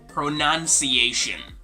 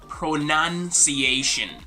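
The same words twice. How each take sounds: The two takes are said the same way.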